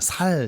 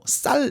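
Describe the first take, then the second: First: It is said with a Gyeongsang-style plain s sound. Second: It is said with a tense standard ss sound.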